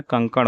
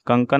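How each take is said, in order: First: Said in the usual way. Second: कंकण ending in dental n; wrong pronunciation. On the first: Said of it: "होता है". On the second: Shown as a demonstration. Teacher shows students the error, कंकण with plain n. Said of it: "नहीं होता है".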